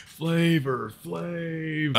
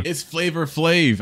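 First: Drawn-out name call. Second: Said in the usual way. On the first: Pretend. Gamer greeting the rescued NPC, slow stretched name call. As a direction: stretch out the name very slowly.

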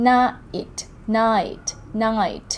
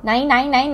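First: Night stretched slowly with the vowel split into a then i. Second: Night said as nai with one flat vowel and no t; the wrong way, night clipped to a flat nai. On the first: Teacher slowly splits the vowel of night into a and i. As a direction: draw night out slowly, a sliding into i. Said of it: "โดยที่เราจะแยกออกเป็น สระ อาอิ". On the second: Teacher shows the wrong night, a clipped nai. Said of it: "จะได้ไม่ออกเสียงเป็น night night night". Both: Shown as a demonstration.

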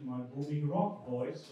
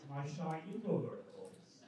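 First: Playful mock rock-star boom. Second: Soft, slow mock-shy voice; shy introvert voice. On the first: Speaker jokes with audience after microphone trouble, booming rock voice. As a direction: put on a joking, big rock voice. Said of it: "I'll use my booming rock voice". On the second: Speaker jokes with audience about microphone level, shy introvert voice. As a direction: shrink playfully into a quiet introvert.

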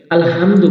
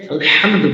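First: "আলহামদু" with a light, plain h; small ha in Alhamdu. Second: "আলহামদু" with হা pressed from mid-throat; strong throaty h inside "আলহামদু"; big ha in Alhamdu. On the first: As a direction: say "আলহামদু" without pressing the throat on হা. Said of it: "বড় হার জায়গায় ছোট হা পড়ি". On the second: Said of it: "ওখানে বড় হা রয়েছে". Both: Shown as a demonstration.

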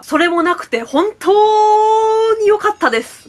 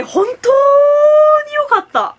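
First: Said in the usual way. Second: "本当に良かった" drawn out slow, higher and louder; heartfelt relief. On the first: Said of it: "relief repeated". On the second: Real, not acted. Fan gushing relief to viewers, slow and emphatic. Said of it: "relief repeated, stronger".

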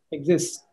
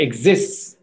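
First: "exists" with the ending reduced, like "exist"; "exists" said without a clear final "ts"; unstressed final S. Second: "exists" with the closing "ts" clearly hissed out; "exists" with every final consonant sounded; stressed final S. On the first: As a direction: let the last S of "exists" drop away. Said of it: "if I don't stress on that s at the end". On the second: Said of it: "you need to stress on the S". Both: Shown as a demonstration.

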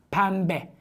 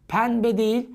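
First: "pembe" said as written; "pembe" 正しく; correct pronunciation. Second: "Pembe" said as penbe; "Pembe" を n で言う; wrong n sound. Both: Shown as a demonstration.

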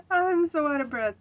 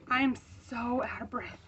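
First: Louder, laughing-winded repeat; out of breath. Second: A little winded, first mention; out of breath. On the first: Vlogger repeats to viewers she's out of breath, louder and laughing. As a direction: say it again through the laugh, more winded. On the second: Vlogger admits to viewers she's winded, lightly breathless. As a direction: tell them you're out of breath, still mostly steady. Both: Real, not acted.

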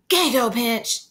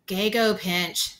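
First: Loud, higher crow's outburst; crow's harsh croak. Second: Slow, understated weariness; weary. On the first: Fed-up crow startles the boy tormenting him, harsh croak. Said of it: "Terrified at the crow's harsh croak". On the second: Grandma to the teasing boy, mildly weary. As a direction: say it slowly, a touch wearily. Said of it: "said Grandma wearily". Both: A narrator's reading.

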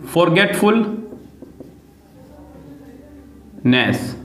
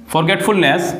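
First: फॉरगेटफुलनेस stretched very slowly syllable by syllable; very slow teaching pronunciation of फॉरगेटफुलनेस; drawn-out model word. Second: Said in the usual way. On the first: Shown as a demonstration. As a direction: model फॉरगेटफुलनेस at a crawl for students. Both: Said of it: "जैसे कि आपने कहा".

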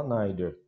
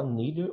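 First: "neither" with an eye sound, NYE-ther; British neither. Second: "neither" with a long ee, NEE-ther; American neither. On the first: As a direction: say "neither" the British way, first syllable like nigh. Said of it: "o britânico fala neither". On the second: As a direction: say "neither" the American way, first syllable like knee. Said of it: "O americano fala neither". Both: Shown as a demonstration.

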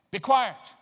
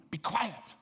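First: Loud, higher command; shouted command to the demon. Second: Short stern command. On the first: Shown as a demonstration. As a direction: roar it as an order to the demon. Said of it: "It's not a little sort of". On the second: Acted. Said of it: "he said sternly".

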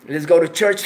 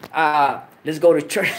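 First: Holding back a laugh. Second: Trying to keep a straight face. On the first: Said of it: "Let me try it again". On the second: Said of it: "I can't even say with a straight face". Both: Shown as a demonstration.

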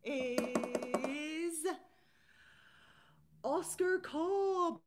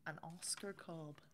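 First: Slow, drawn-out, loud, high announcement of the name; big winner reveal. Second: Soft whisper of the last name. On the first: Host revealing the voucher winner to viewers, loud and drawn out. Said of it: "I tried to drum roll". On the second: Host reading the winners list, dropping to a whisper. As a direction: breathe the name out like a secret. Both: Acted.

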